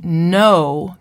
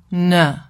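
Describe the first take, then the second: First: Said in the usual way. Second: N said as a short nuh with a schwa; n with a neutral vowel. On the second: Shown as a demonstration. A therapist imitating a child saying no as nuh. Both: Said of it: "the client will say n".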